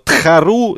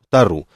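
First: The first consonant is aspirated, with a breathy h. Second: The first consonant is a plain t sound. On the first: This is the name as originally pronounced. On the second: This is the simplified local form of the name.

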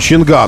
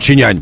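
First: The name is said with a hard 'gan' sound. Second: The name is said with a soft 'nyan' sound. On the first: The speaker calls it wrong. "он не чинган" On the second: The speaker calls it right. "он чинянь должен прочитываться"

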